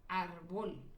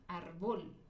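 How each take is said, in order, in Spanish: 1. El acento está en la última sílaba. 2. El acento está en la última sílaba.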